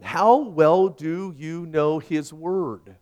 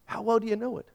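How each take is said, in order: First: Each word drawn out slowly, landing on "How"; slow pointed question. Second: Quicker, higher and softer, a gentle prod; lighter higher follow-up. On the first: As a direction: ask it slowly and weightily, letting "How well" hang. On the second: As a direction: repeat it lightly, higher and quieter, nudging. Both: Shown as a demonstration. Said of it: "Let me ask you something".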